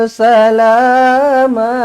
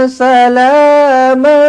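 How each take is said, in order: The two takes are said the same way.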